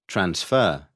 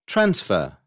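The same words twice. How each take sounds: First: Trans-FER, second syllable stressed. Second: TRANS-fer, first syllable stressed. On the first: Teacher showing the verb, transfer stressed on FER. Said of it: "second syllable when it is a verb". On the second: Teacher showing the noun, Transfer stressed on TRANS. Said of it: "stress is on the first syllable". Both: Shown as a demonstration.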